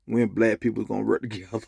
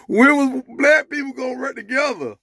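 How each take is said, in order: First: Said in the usual way. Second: High, loud delivery of the punchline; emphatic repeat. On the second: Real, not acted. Joke teller repeating the punchline after laughing, high and emphatic. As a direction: hit the question high and emphatic.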